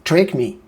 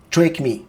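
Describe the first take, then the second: First: Deliberate American-accented voice command. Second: Higher-pitched attempt at an American accent. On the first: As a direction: put on a fuller American accent. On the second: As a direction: give the voice command in an American accent. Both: Shown as a demonstration. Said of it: "faut vraiment utiliser l'accent américain".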